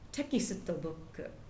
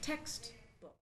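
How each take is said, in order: First: Extra vowels split the consonants into many syllables. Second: The consonants cluster together in just two syllables. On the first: The speaker calls it wrong. "insert lots of extra little vowel sounds to separate those consonants" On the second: The speaker calls it right. "it really is only textbook"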